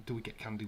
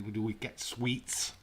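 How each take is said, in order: First: Said in the usual way. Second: Slow, with the word sweets stressed and rising; slow, correcting question with a lift on sweets; correcting candy to sweets. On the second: Shown as a demonstration. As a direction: lean on sweets as the right word. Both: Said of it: "We do sweets here in the U K".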